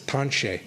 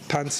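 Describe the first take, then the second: First: It is said with the Michif pronunciation. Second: It is said with the Cree pronunciation. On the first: "Michif is tanche" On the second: "tanse is Cree"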